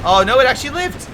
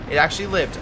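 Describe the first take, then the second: First: High, loud burst of surprise; surprised. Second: Said in the usual way. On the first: Real, not acted. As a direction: shout it out in disbelief. Surprised a unit survived.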